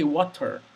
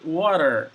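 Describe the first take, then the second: First: It is said in a British accent. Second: It is said in an American accent. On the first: "That's British English" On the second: "That's American English"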